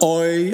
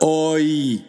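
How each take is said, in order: First: The two vowels blend into one gliding sound. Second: The two vowels are said as separate sounds. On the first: The speaker calls it wrong. "Not OI as in boy" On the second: The speaker calls it right. "but OI, two distinct vowels"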